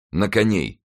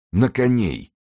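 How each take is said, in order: First: Firm, slightly raised call; echoed order. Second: High, drawn call to mount; commanding call. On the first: Athos echoes Winter's order, measured commanding call. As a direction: repeat the order with contained resolve. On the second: Winter orders the men to horse, high commanding call. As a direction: raise the pitch into a rallying order. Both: A narrator's reading.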